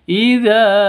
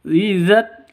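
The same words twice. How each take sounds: First: The final vowel of the word is drawn out. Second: The final vowel of the word is kept short. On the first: The speaker calls it wrong. "bukan dibaca panjang. Idza tasaq itu salah" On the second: The speaker calls it right. "langsung seperti itu"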